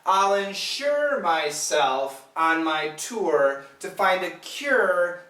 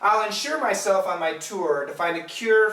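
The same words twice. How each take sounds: First: The sentence is spoken slowly. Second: The sentence is spoken quickly. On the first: "let's say it slowly" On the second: "I'll say it faster"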